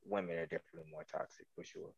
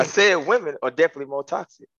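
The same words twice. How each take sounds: First: Very low, very soft mumbled answer; barely audible. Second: Clear, audible restatement at full voice; said with chest. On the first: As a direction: answer so softly the room can't hear. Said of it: "We couldn't hear you". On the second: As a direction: repeat the answer firmly so everyone hears. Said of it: "Say it with your chest". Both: Real, not acted.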